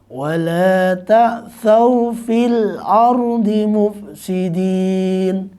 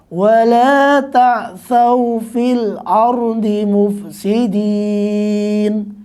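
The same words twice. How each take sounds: First: The vowel before the final n lasts two beats. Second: The vowel before the final n lasts four beats. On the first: "saya baca dengan dua harokat" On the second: "Kalau empat"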